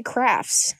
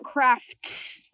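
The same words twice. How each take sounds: First: "crafts" with the T dropped, ending in F-S; crafts without T. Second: "crafts" with the final T clearly sounded. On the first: Showing a friend her own way, "crafts" without the T. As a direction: say "crafts" as "craffs", no T. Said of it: "like, without the T". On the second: Showing a friend how it is spelled, "crafts" with a crisp T. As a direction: say "crafts" slowly, landing the T before the S. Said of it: "It's spelled crafts". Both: Shown as a demonstration.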